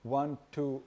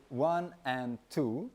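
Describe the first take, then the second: First: Said in the usual way. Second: "one, and two" counted slowly with the "and" added; half-speed count. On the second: Shown as a demonstration. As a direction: stretch it out, slow and even. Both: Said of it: "for example".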